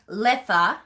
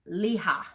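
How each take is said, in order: First: The middle consonant sound is pronounced. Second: The middle consonant sound is dropped. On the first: "which is how I pronounce it" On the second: "they don't pronounce the T part of that"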